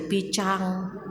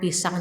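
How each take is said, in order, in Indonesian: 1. Bunyi s dicadelkan dengan gaya kekanak-kanakan. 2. Bunyi s diucapkan dengan jelas.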